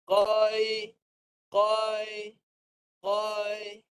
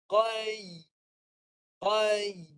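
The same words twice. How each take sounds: First: Qai said flat, the ya not heard; wrong ya, tongue not raised. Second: Qai with the middle of the tongue lifted, ya clear; correct ya, tongue raised. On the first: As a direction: qai without lifting the middle of the tongue. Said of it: "Itu tak naik". (sebutan salah, lidah tak naik) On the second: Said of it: "Itu naik". (sebutan betul, lidah naik) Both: Shown as a demonstration.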